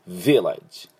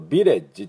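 First: The stress is on the first syllable. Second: The stress is on the second syllable. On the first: The speaker calls it right. "V にアクセントがあります。" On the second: The speaker calls it wrong. "日本語だとVillage ってレの方が強くなってしまいますけど"

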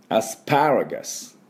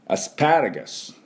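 First: The 'pa' syllable is strongly stressed. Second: The 'pa' syllable is strongly stressed.

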